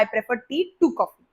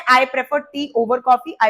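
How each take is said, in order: First: Slow, with "to" set apart; stress on "to". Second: Slow example with "over" picked out; stress on "over". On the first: Teacher gives students the correct preposition, stress on "to". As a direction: pick out "to" as the correction. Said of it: "preposition to लगाते हैं". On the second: Teacher quotes what many students say, stress on "over". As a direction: mark "over" as the common slip. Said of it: "बहुत बच्चे कहते हैं". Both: Shown as a demonstration.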